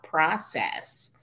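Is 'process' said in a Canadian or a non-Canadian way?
non-Canadian. The word is said with a non-Canadian pronunciation. "not process"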